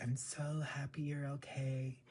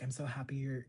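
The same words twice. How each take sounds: First: Breathy imitated whisper, slightly higher; mock whisper. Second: Said in the usual way. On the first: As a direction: whisper it sweetly like an actress. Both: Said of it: "she's like".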